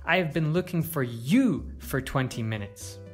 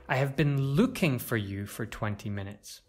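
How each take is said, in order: First: The stress is on the word you. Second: The stress is on the word looking. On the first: It was this person, not someone else, being sought. "To stress you" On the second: The action itself matters most. "To stress looking"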